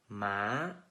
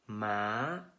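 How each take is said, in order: The two takes are said the same way.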